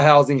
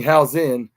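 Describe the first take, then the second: First: "housing" with a full -ing ending; mispronounced name. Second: "housing" said as HOW-zin, ending in n; corrected name. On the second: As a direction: end "housing" on a plain n, like Hausen. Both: Shown as a demonstration. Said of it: "not housing".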